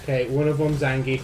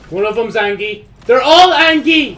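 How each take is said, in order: First: Said in the usual way. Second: Building from louder to much higher, much louder alarm; rising panic. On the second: Real, not acted. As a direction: escalate into a panicked shout. Panic building at more enemies.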